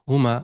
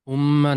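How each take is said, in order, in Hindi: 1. "m" ध्वनि एकल है और छोटी है। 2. "m" ध्वनि दोहरी है और लंबी खींची जाती है। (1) "हुमा नॉर्मल" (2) "हुम्मा नहीं"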